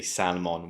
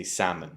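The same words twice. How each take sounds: First: Salmon as "SAL-mon"; salmon mispronounced with its written L; L sounded, wrong. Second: Salmon as "SAM-un"; salmon quietly, falling, no L; L left out. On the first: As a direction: put an audible L into salmon. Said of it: "We don't say salmon". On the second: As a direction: say salmon with a silent L. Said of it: "we say salmon". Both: Shown as a demonstration.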